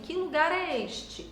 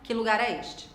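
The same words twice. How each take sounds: First: It has a questioning intonation. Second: It has a flat statement intonation. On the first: The speaker is asking something. The speaker calls it right. "elas têm uma entonação diferente. A gente diz assim" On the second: The speaker seems to be asserting something. The speaker calls it wrong. "E não ... dá a entender ... que eu estou afirmando algo"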